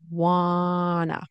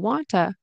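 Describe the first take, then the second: First: The t sounds are dropped completely. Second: The two t sounds merge into one. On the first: "which turns into wanna" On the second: "turns into wanta"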